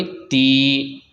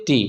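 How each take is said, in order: First: ती with the ee drawn out long; long vowel. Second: ती with a short, unstretched i; short vowel. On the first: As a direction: hold and stretch the vowel of ती. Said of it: "तो भी उसको खींचेंगे". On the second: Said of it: "नहीं खींचना है". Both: Shown as a demonstration.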